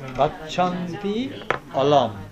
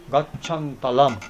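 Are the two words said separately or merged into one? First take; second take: separately; merged. First: The two words are said in full, separately. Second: The vowels merge, making one fused word.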